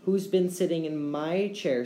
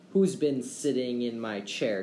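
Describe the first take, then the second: First: Higher-pitched little bear voice; squeaking baby bear. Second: Lightly voiced bear growl; a hint of a gruff papa bear; growling father bear. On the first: Baby Bear finding his chair used, squeaked high. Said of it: "squeaked Baby Bear". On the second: Father Bear finding his chair used, mildly growled. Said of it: "he growled". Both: A narrator's reading.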